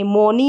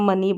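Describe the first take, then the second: First: The first vowel is an 'oh' sound. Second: The first vowel is a short 'uh' sound. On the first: The speaker calls it wrong. "मोनी नहीं बोलते हैं" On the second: The speaker calls it right. "मनी पढ़ते हैं"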